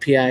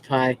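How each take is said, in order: First: It is spelled out as two separate letters. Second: It is said as one word rhyming with sky. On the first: It is the abbreviation for private investigator. The speaker calls it wrong. "I said it wrong. I said P I" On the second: It is the mathematical constant. The speaker calls it right. "It's pie"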